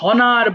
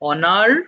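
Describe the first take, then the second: First: The word begins with an h sound. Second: The word begins directly with a vowel. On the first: The speaker calls it wrong. "So এটাকে হনার বলে ফেলা যাবে না।" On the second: The speaker calls it right. "এইচ এর উচ্চারণটা এখানে হবে না।"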